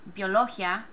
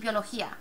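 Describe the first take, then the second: First: The stress falls on the syllable "lo". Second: The stress falls on the syllable "í". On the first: The speaker calls it wrong. "But we don't say biología" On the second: The speaker calls it right. "It's definitely biología. ... You're dividing up that I A again"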